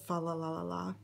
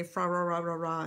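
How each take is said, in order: First: Said in the usual way. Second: "Fra Ra Ra Ra Ra" with R replacing every L; quoted carol garble, "Fra Ra Ra Ra Ra"; movie-style mispronounced carol. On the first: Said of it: "instead of "Fa La La La La". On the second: Retold or imitated. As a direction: say the refrain as FRA RA RA RA RA, all Rs. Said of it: "they say "Fra Ra Ra Ra Ra" instead of".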